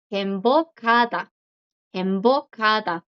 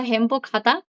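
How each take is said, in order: First: 행복하다 said em-bo-ka-da, h dropped; standard pronunciation. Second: 행복하다 with a clear h, hem-bo-ka-da; regional pronunciation. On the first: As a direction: say 행복하다 without the h, embokata. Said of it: "la pronunciación como estándar es". (행복하다 sin la h, pronunciación estándar) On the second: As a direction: say 행복하다 sounding the h lightly. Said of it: "en algunas partes de Corea del Sur se pronuncia". (행복하다 con h aspirada, pronunciación regional) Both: Shown as a demonstration.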